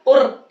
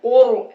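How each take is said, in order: First: "और" as "qur" with light, trilled R; thin Ra. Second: "और" as a full, rounded "qor"; heavy Ra. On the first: Teacher showing what not to read, thin Ra. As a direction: roll a thin R in "और", vowel unrounded. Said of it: "इस तरह से बारीक करके नहीं पढ़ेंगे". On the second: Teacher modelling the correct reading, heavy Ra. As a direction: thicken the R in "और". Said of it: "ऐसे पढ़ेंगे". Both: Shown as a demonstration.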